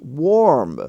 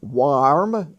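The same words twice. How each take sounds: First: The vowel sounds like the one in 'for'. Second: The vowel sounds like the one in 'car'. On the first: The speaker calls it right. "it's warm" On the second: The speaker calls it wrong. "It's not warm"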